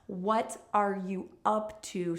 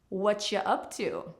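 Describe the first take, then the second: First: Each word is said fully and separately. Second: The words are reduced and run together. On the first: "so clearly" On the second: "connect and link those sounds together"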